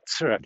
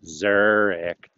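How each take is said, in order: First: The word begins with a ts sound. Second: The word begins with a plain z sound. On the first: The speaker calls it right. "You got to make that t sound" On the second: The speaker calls it wrong. "You don't go Zurich"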